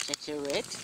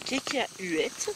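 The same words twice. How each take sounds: First: Said in the usual way. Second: Cacahuètes stretched very slowly; drawn out. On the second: Shown as a demonstration. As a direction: drag out cacahuètes playfully. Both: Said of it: "cacahuètes repeated".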